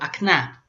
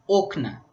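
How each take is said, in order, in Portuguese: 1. A sílaba tônica está na última sílaba. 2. A sílaba tônica está na primeira sílaba. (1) "com a sílaba tônica no final" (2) "a sílaba tônica é no início"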